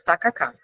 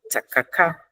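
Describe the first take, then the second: First: The first consonant is a plain unaspirated t. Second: The first consonant is strongly aspirated, almost a 'ch'. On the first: The word is said the Portuguese way. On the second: The word is said the English way.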